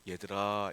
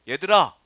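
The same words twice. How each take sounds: First: It is called out in a soft, kind voice. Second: It is called out in a sharp, scolding voice. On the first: It is an affectionate address. "인자한 목소리로 얘들아 이런 말씀이 아니에요" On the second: The whole noisy group is being called to order. "엄마들이 뭐라 그래요?"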